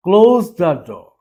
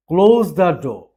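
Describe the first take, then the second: First: Very slow, louder command; slow and firm. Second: Said in the usual way. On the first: Shown as a demonstration. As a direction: stretch each word so learners can copy. (ধীরে ও জোরে আদেশ)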